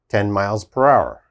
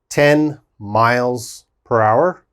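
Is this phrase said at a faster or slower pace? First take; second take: faster; slower. First: The phrase is said at a faster pace. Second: The phrase is said at a slower pace.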